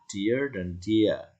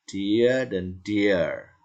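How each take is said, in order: First: Dear drawn out slowly with a hint of r. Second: Dear drawn out slowly as dee-uh; slow dear drill. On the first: Teacher repeats Dear slowly with r. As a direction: stretch Dear and curl the end. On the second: Teacher slowly models dear twice. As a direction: stretch dear into two beats. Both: Shown as a demonstration. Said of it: "Nah, ini".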